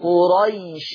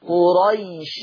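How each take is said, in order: First: The word runs on with a short vowel. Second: The word runs on with a short vowel.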